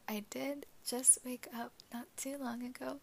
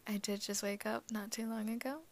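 First: Raspy just-woke-up voice; groggy morning rasp. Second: Said in the usual way. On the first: Real, not acted. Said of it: "excuse my morning voice". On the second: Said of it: "is it deeper than normal".

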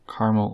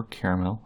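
First: Caramel in its first of two pronunciations, squeezed as CAR-mul; variant caramel. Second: Caramel with the middle vowel sounded, CARE-uh-mel; variant caramel. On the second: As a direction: say caramel in three syllables. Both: Shown as a demonstration. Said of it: "I say it both ways".

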